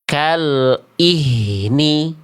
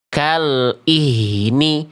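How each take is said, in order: The two takes are said the same way.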